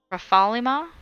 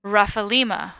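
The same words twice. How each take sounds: First: "Rafalima" said as ruh-FAH-li-ma, questioning; unsure "Rafalima?", second syllable stressed, pitch climbing at the end; shifted accent. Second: "Rafalima" said as RAFF-uh-LEE-muh, falling; "Rafalima" as a statement, LEE stressed; first reading of name. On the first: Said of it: "where to put the accent". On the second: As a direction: read "Rafalima" as RUFF-a-LEE-ma, settled. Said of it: "supposed to say that differently". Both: Shown as a demonstration.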